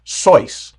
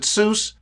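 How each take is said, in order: First: The name rhymes with the word voice. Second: The name rhymes with the word juice. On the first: This is the original pronunciation of the name. "like the word voice" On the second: This is how most people say the name. "like juice"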